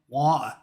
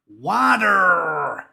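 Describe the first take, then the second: First: It is said in the speaker's own non-American accent. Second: It is said in an exaggerated American accent. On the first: "They don't say water" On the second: "They say water. Like it's spelled W A A A T T T T E R"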